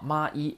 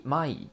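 First: マイ split into two separate sounds, "ma, i"; syllable by syllable. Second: Said in the usual way. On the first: Shown as a demonstration. Teacher showing how 枚 is read, syllable by syllable. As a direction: sound out マイ as ma, then i. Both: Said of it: "那么读成マイ啊".

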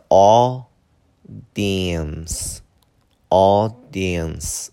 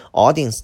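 First: "audience" very slowly as two beats, au-dience; first variant pronunciation. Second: "audience" in three slow beats, au-di-ence; alternative pronunciation. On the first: Teacher offers one way to say it, two-beat "audience". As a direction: stretch "audience" out in two long, loud chunks. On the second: Teacher offers the other way to say it, three-beat "audience". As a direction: separate the middle "di" in "audience". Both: Shown as a demonstration. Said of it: "或者是".

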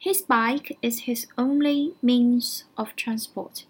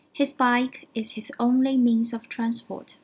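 First: Slow, careful English read-out; slow teacher model reading; slow model sentence. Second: Said in the usual way. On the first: Shown as a demonstration. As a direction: spell it out slowly for learners. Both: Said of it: "这句话怎么说".

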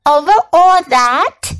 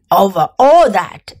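First: "Over all that?" higher, rising at the end; asking. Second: "Over all that," falling at the end as a firm statement; answering. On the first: Little prince queries the king's rule, "Over all that?" rising in question. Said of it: "asked the little prince". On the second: King confirms to the prince, "Over all that," falling and settled. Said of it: "the king answered". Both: A narrator's reading.

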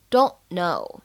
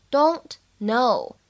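First: "don't know" with the t in "don't" left unreleased; unreleased stop. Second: Said in the usual way. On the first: Shown as a demonstration. Teacher shows learners "don't know" with an unreleased t. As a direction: run "don't" into "know" without releasing the t. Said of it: "不完全爆破的现象，读成". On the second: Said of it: "可以有不完全爆破的现象".

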